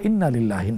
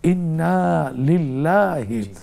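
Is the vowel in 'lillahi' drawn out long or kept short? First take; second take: short; long. First: The vowel in lillahi is kept short. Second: The vowel in lillahi is drawn out long. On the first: The speaker calls it wrong. "মিডিয়াতে উচ্চারণ করা হয় ইন্না লিল্লাহি, না" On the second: The speaker calls it right. "এখানে টান হবে"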